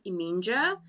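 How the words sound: The name is pronounced the English way. The speaker calls it wrong. "someone who is English would be like"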